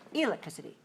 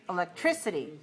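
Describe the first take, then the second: First: The stress is on the first syllable. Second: The stress is on the third syllable. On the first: "if five one" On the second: "If it's five three"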